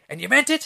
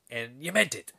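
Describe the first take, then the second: First: High, loud Irish brogue rising in disbelief; thick Irish accent. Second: Lightly voiced, restrained Irish accent; deliberate question with a hint of Irish; Irish sergeant checking. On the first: Retold or imitated. Sergeant presses the man about his insult, high-pitched Irish accent. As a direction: demand it in a raised Irish accent. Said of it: "he's got this thick Irish accent". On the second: Sergeant revisits the insult later, understated Irish accent. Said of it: "then, like, five minutes later".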